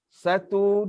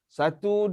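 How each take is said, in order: First: The counting is moderately slow and measured. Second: The counting is moderately fast. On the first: This is the tartil recitation speed. "itu kelajuan uh, tartil" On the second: This is the hadar recitation speed. "itu kelajuan hadar"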